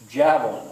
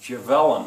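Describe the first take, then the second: First: The stress is on the first syllable. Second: The stress is on a later syllable. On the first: The speaker calls it right. "It's javelin" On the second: The speaker calls it wrong. "Otherwise it would be"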